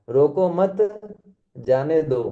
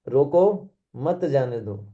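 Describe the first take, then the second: First: The pause comes after the second word. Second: The pause comes after the first word. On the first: Do not stop it; let it go. "रोको मत के बाद comma लगाओ" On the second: Stop it; do not let it go. "रोको के बाद comma लगाओ"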